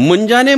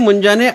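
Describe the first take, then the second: Both takes have the same delivery.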